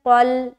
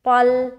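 First: The first consonant is heavy, with rounded lips. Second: The same.

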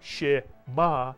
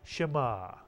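First: The first vowel is full, giving two syllables. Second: The first vowel is barely heard, giving one syllable. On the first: The speaker calls it wrong. "Not shema" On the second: The speaker calls it right. "but shema"

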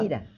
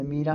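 First: The stress is on the first syllable. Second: The stress is on the second syllable. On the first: The speaker calls it right. "se dice mira" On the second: The speaker calls it wrong. "No se dice mira"

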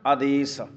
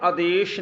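First: The word ends with a plain 's' sound. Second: The word ends with an 'sh' sound. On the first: The speaker calls it right. "ਸੱਸੇ ਦੇ ਪੈਰ 'ਚ ਬਿੰਦੀ ਨਹੀਂ ਲਾਉਣੀ" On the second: The speaker calls it wrong. "ਇਹਨੂੰ ਨਾ ਆਦੇਸ਼ ਨਹੀਂ ਪੜ੍ਹਨਾ"

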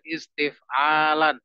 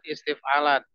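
First: The vowel after the third consonant is long. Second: The vowel after the third consonant is short. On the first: The speaker calls it right. "Ainya itu panjang" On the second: The speaker calls it wrong. "Bukan istif'alan"

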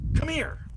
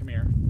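First: It is said with strong added emotion. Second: It is said plainly, without added emotion.

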